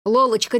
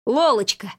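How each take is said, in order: First: Anxiously calling her name, slightly raised; a worried friend trying to wake her. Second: Relieved, happy call of her name; light joy as she opens her eyes; glad exclaim. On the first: Worried partner calling fainted Lola, anxious. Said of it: "знакомого встревоженного голоса". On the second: Marquis relieved Lola woke up, gladly exclaiming. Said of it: "обрадовался маркиз номер один". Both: A narrator's reading.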